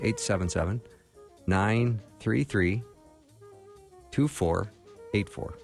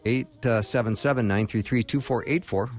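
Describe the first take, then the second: First: The number is read slowly. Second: The number is read at normal speed.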